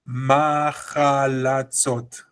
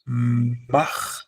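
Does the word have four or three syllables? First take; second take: four; three. First: A full a vowel is added; four syllables. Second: The vowel is cut short; three syllables. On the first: The speaker calls it wrong. "I don't say machalatzot" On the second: The speaker calls it right. "but correctly it is machlatzot"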